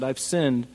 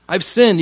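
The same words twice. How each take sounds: First: Said in the usual way. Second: Louder, higher, hammed-up remorse; mock tearful confession. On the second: Saul confessing to David with mock crocodile tears. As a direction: fake a crocodile-tears cry of guilt. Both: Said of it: "You can hear it in his voice".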